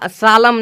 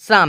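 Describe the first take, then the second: First: The L sound is pronounced. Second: The L sound is silent. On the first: The speaker calls it wrong. "सालम नहीं आया" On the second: The speaker calls it right. "M के पहले एल है तो आया शाम"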